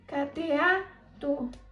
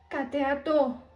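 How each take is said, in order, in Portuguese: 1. A sílaba tônica é a terceira. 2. A sílaba tônica é a última. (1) "Se a sílaba tônica fosse o A" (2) "Se a sílaba tônica fosse o TO"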